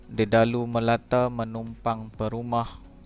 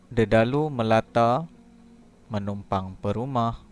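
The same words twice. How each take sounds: First: It is read straight through without a pause. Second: There is a short pause after the second word. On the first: "Kita baca dahulu sepintas lalu" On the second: "berhenti sekejap di antara perkataan yang kedua dan perkataan yang ketiga"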